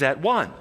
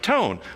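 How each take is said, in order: First: The word 'one' rhymes with 'sun'. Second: The last part rhymes with 'bone'.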